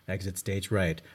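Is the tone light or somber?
somber. It is said in a somber, serious tone.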